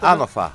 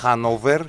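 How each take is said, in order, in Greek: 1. Λέγεται χωρίς το h, τελειώνει σε 'fa'. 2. Διαβάζεται όπως γράφεται, τελειώνει σε 'ver'. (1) "είναι Άνοφα" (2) "το βλέπουμε γραμμένο ως"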